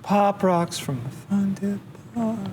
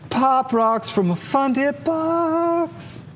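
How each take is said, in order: First: It is said flatly, without enthusiasm. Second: It is said with enthusiasm and feeling.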